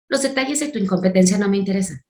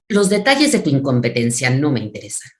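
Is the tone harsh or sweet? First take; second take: sweet; harsh. First: It is said in a sweet, soft tone. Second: It is said in a hard, cold tone.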